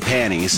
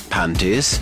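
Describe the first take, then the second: First: The t sound in the middle is dropped. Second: The t sound in the middle is pronounced. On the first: "I say it without the T" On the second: "so he's got the T"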